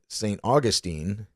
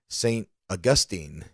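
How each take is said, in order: First: The name does not begin like Augusta. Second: The name begins sounding like Augusta. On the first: "I would have called it Saint Augustine" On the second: "the announcer pronounced it Saint Augustine, like Augusta"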